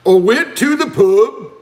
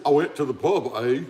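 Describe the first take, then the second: First: Higher, louder, drawn-out mock Scottish; exaggerated Scottish pub-goer impression; attempted Scottish accent. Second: Lightly put-on Canadian with a tagged-on "eh"; a hint of pretend Canadian; mock Canadian accent. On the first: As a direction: have a go at a hammed-up Scottish accent. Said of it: "Let's have a little Scottish accent". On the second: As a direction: do a casual, understated Canadian accent. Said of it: "When he's trying to be Canadian". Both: Shown as a demonstration.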